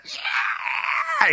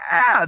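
First: High, held-back scream; mock blood-curdling scream. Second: High-pitched concert "yeah"; concert cheer. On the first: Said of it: "it's just a blood-curdling scream". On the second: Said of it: "like in a concert where you're like". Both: Shown as a demonstration.

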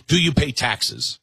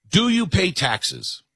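First: Said in the usual way. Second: Higher, slower, each word pressed; slow emphatic repeat. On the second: Shown as a demonstration. Host pressing his voting test, slow emphatic repeat. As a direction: repeat it slowly for weight.

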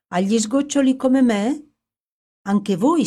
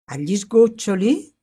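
First: A much higher, louder rising question; young man realises the prince is ruined like him; intense astonishment. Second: A louder, rising question; young man repeats the prince's words, surprised; wondering echo. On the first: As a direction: seize on the kinship with growing excitement. Young man grasps their shared ruin. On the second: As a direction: echo the phrase as it sinks in. Young man echoes the phrase. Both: A narrator's reading.

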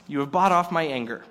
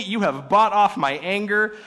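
First: Said in the usual way. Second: You have bought off my anger, higher and louder, gushing; mock delighted. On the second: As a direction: gush "bought" like a happy man. Quoted gushing versus narrated.

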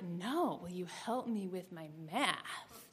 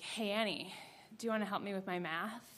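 First: "help" stressed, slow and hushed. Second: Hushed question, stress on you; quiet ask. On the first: Boy repeating his line with weight on "help", hushed. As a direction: lean on the word "help", say it slow and low-key. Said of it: "the joke clicks into place". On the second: Boy across the aisle quietly asking Annie for math help. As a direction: lean over and ask softly, stress on "you". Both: Retold or imitated.

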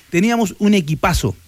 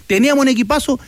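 First: EQUIPAZO settling down as a statement; affirming answer. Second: EQUIPAZO lifted high as a question; rhetorical question. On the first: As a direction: confirm it in usual pitch, falling on "equipazo". Answers his own question. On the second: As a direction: ask "equipazo" with raised pitch and a rising end. Asks, then answers himself. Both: Real, not acted.

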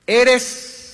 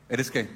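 First: Eres held high and loud, left hanging; suspended eres. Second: Said in the usual way. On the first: Shown as a demonstration. Pastor pausing mid-verse for the congregation, high and held. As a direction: leave eres hanging as a question to the church.

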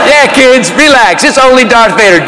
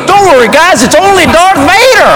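First: Casual mock reassurance in usual pitch; dry mock calming of the kids; sarcastic echo. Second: High, upbeat clown reassurance; high-pitched hype-man voice. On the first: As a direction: echo the clown, unimpressed. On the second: Retold or imitated. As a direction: call it out cheerily like a party clown. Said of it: "the clown, who's my hype man".

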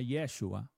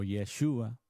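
First: "Yeshua" stressed on the opening YE; first-syllable stress on Yeshua. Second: "Yeshua" with a strong SHU; second-syllable stress on Yeshua. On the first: Preacher giving the Hebrew name, "Yeshua" stressed on YE. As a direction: say "Yeshua" as YE-shu-a. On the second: Preacher offering another Hebrew pronunciation, "Yeshua" stressed on SHU. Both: Shown as a demonstration. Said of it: "que en hebreo se llama".

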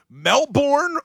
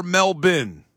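First: "Melbourne" with a full second syllable, like born; full pronunciation of Melbourne. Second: "Melbourne" with a reduced second syllable, MEL-bin; local pronunciation of Melbourne. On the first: Host offering both ways of saying the city, "Melbourne" as MEL-born. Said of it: "it depends on your accent". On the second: Host offering both ways of saying the city, "Melbourne" as MEL-bin. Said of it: "that's how the locals say it". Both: Shown as a demonstration.

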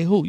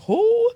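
First: Said in the usual way. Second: "Who" pitched very high and held; emphatic "Who". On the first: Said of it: "You can't just say who". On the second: Shown as a demonstration. Preacher showing listeners how to say it, emphatic "Who". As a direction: hoot a long, high "Who". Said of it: "You have to say".

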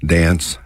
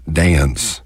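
First: Said in the usual way. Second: Dance with a lilt, "day-unce"; stretched Texas vowel. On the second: Shown as a demonstration. Showing listeners the Texas lilt on dance. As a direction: stretch dance into two syllables. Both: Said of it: "stretch our vowels out and put a lilt".

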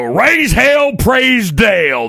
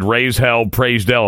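First: Loud, high chant, slow praise Dale; drawn-out shout. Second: Said in the usual way. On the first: Shown as a demonstration. Host shouting the slogan to open the segment, drawn out. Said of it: "I don't know why I have to say it like that". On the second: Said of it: "it said".

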